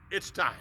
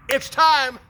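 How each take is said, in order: First: Soft echo. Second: Declaring. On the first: God repeating the promise, soft and hushed. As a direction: drop it to a soft hush. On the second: God declaring the long-awaited miracle, ringing and loud. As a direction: proclaim it high and loud. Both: Acted.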